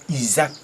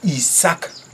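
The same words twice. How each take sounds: First: The middle consonant sounds like a z. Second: The middle consonant sounds like an s. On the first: This is the Frenchified form of the name. The speaker calls it wrong. "c'est la francisation qui est Isaac" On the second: This is the original form of the name. The speaker calls it right. "la vraie prononciation, la vraie lecture, c'est Isaac"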